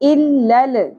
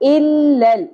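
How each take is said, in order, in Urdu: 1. آخری لام گونجتے ہوئے اچھال کے ساتھ ادا ہوتا ہے۔ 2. آخری لام اچھال کے بغیر ٹھہرا ہوا رکھا جاتا ہے۔ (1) "لام ساکن کے اوپر قلقلہ نہیں ہونا چاہیے. الل نہیں پڑھنا" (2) "کیسے پڑھیں گے؟"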